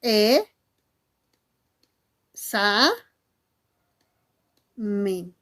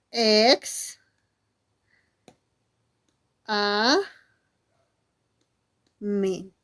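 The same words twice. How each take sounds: First: Each syllable alone, long gaps between; correct syllable division. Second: Each syllable alone, long gaps between; broken into syllables. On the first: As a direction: split "examen" as "E, sa, men", very slowly. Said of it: "la correcta silabización debería ser". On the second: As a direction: split "examen" as "ex-, a-, men", very slowly. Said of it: "hacen esto. Dicen". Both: Shown as a demonstration.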